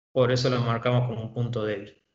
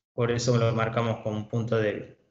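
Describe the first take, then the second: The two takes are said the same way.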